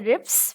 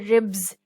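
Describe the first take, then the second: First: The word ends with a hissing s sound. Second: The word ends with a buzzing z sound. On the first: The speaker calls it wrong. "We don't say ribs" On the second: The speaker calls it right. "we say ribs because B is a voice consonant"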